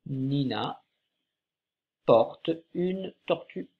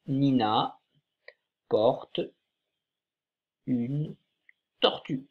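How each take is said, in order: First: Nina porte une tortue read more smoothly, slightly slow; teacher rereading the sentence more fluently; read a bit faster. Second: Nina porte une tortue read word by word with long pauses; teacher reading the sentence aloud slowly, one word at a time. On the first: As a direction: read the sentence as one phrase. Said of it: "cette phrase commence par Nina". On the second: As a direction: read each word apart for the class. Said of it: "on va la lire ensemble". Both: Shown as a demonstration.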